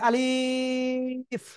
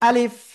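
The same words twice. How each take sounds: First: The word is drawn out slowly. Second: The word is said quickly and short. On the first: The speaker calls it wrong. "এ অক্ষরে কোনো টেনে পড়া যাবে না। যদি কেউ বলে আলিফ, হবে না।" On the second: The speaker calls it right. "আলিফ তাড়াতাড়ি পড়তে হবে।"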